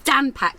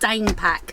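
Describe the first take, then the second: First: The first vowel is short, like in 'man'. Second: The first vowel is long, like in 'main'. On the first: The speaker calls it right. "And that's Dan pack" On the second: The speaker calls it wrong. "not Dane pack"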